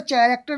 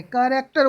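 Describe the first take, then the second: First: कैरेक्टर said with a ch sound, cheh-rek-ter; the wrong way, कैरेक्टर starting with ch; wrong pronunciation. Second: कैरेक्टर said with a hard k, kae-rek-ter; the right way, कैरेक्टर starting with k; correct pronunciation. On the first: Teacher warning students off the ch sound in कैरेक्टर. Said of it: "इसमें कैरेक्टर नहीं बोलेंगे". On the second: Teacher giving students the hard k in कैरेक्टर. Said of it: "कैरेक्टर बोलेंगे". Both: Shown as a demonstration.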